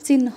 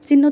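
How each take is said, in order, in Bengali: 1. হ ধ্বনিটি ন-এর পরে আসে। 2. হ ধ্বনিটি ন-এর আগে আসে। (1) "চিহ্ন বলতে হবে। কারণ যখনই হ আর ন একসাথে থাকবে তখন এন এইচ ও উচ্চারণ হবে।" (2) "চিহ্ন তো বলা যাবে না"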